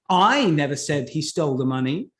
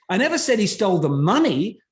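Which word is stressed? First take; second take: I; money. First: The word "I" carries the strongest stress. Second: The word "money" carries the strongest stress. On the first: Someone else said it. "who said that he stole the money then?" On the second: He stole something else. "what else did he steal at this point?"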